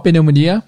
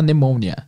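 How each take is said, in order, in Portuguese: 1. A palavra começa com um som de P pronunciado. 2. A palavra começa sem nenhum som de P. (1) "Escreve exatamente igual pneumonia" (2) "mas se fala pneumonia"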